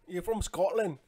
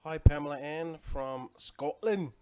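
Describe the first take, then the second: First: A quick, hammed-up Scottish accent, higher and louder; bad Scottish accent. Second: Said in the usual way. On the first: Teasing a Scottish viewer in a bad Scottish accent. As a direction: have a go at a Scottish accent and miss. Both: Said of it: "That's a bad accent".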